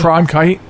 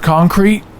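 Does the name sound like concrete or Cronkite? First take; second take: Cronkite; concrete. First: The r comes right after the k sound. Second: The r comes after the o sound. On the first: The speaker calls it right. "It's yeah" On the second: The speaker calls it wrong. "So I put the R in the wrong place"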